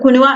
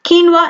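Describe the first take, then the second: First: The word begins with 'koo' and has three syllables. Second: The word begins with 'kee' and has two syllables. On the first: The speaker calls it wrong. "കുനുവ എന്നൊന്നും വായിക്കരുത്" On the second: The speaker calls it right. "കീൻവ എന്നാണ് അതിന്റെ pronunciation"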